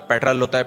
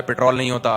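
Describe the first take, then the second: First: "پٹرول" said the English way, as PET-rul; corrected pronunciation. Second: "پٹرول" said the local way, as pit-ROL; local pronunciation. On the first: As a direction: say "پٹرول" with stressed "pet", short ending. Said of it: "مجھ سے پٹرول ہوتا ہے، پٹرول نہیں ہوتا". ("پٹرول" کو انگریزی انداز میں "پیٹرل") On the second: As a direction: say "پٹرول" with a long O in the ending. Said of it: "ہم لوگ کے یہاں یہ دیکھیے پٹرول ہوتا ہے". ("پٹرول" کو مقامی تلفظ میں "پِٹرول") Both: Retold or imitated.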